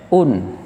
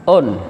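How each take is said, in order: First: The vowel is a clear u sound. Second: The vowel sounds like an o. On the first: The speaker calls it right. "tapi pakai u. U tambah n" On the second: The speaker calls it wrong. "Hati-hati jangan on"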